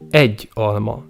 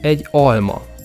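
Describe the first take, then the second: First: The stress falls on the first word. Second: The stress falls on the second word. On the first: It means one apple, not two. "one apple and not two" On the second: It means an apple. "the stress falls on the noun and not on the article"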